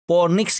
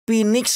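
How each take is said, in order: First: The word is pronounced with an Indonesian accent. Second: The word is pronounced with an English accent.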